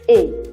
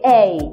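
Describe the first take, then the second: First: The vowel is said in the local accent. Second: The vowel is said in standard English. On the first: This is the sound learned growing up. The speaker calls it wrong. "that is what we actually got from our fathers" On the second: This is the sound trained on purpose. The speaker calls it right. "The right English pronunciation or the right sound pronunciation at the middle is A"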